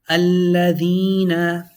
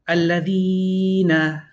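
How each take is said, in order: First: The L is doubled and the ee long. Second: The L is single and the ee overlong. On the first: The speaker calls it right. "You have a double sounding L, a double sounding E" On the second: The speaker calls it wrong. "You took off the lam, you did too much of a e"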